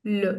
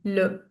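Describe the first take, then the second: First: The vowel is a neutral 'uh' sound. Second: The same.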